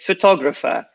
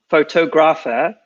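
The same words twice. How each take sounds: First: The stress shifts away from photograph's pattern. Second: The stress follows the pattern of photograph. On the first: The speaker calls it right. "it's photographer" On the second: The speaker calls it wrong. "So it's not photographer"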